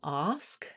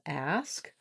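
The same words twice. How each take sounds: First: The vowel is the back 'ah' of father. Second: The vowel is the front 'a' sound. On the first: The speaker calls it wrong. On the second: The speaker calls it right.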